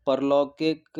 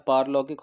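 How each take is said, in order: First: परलौकिक said with short पर at the start; wrong form read out. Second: पारलौकिक with long पार at the start; correct form. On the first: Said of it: "परलौकिक नहीं होता है". (परलौकिक, छोटे अ के साथ गलत रूप) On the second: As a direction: stretch the first vowel, पारलौकिक. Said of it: "पारलौकिक होता है". (पारलौकिक, लंबे आ के साथ सही रूप) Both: Shown as a demonstration.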